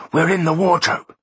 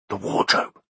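First: Much higher, eager announcement; excited. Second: Unvoiced whisper of the find. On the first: Acted. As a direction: call it out pitched up with glee. Second take, excited. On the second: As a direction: breathe it out as a whisper. First whispered take.

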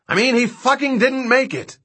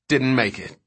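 First: High-pitched, exasperated yell; angry yell. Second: Said in the usual way. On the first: Acted. Dodgson answers King's question about Bazleton, yelling angrily. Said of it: "Dodgson yelled".

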